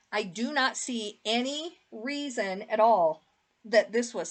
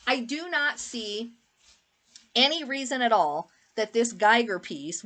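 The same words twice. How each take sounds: First: Talking through hiccups; hiccuping between words. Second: Said in the usual way. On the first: Real, not acted. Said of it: "sorry, I got the hiccups". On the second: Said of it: "I got the hiccups".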